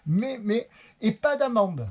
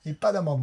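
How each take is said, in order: First: Excited. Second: Said in the usual way. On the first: Real, not acted. Relief at no fine.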